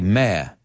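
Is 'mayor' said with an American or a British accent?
British. It is said with a British accent, like 'mare'.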